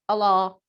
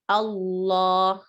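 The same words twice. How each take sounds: First: The l sound is short and single. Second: The l sound is held long, doubled. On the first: The speaker calls it wrong. "English speaking people pronounce it as Allah" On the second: The speaker calls it right. "But it's Allah. ... There's two lam sound there"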